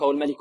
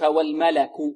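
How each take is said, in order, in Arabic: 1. لا توجد حركة فتحة بعد اللام. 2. تأتي بعد اللام حركة فتحة. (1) "لا نقول والملك" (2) "الملك بفتح اللام"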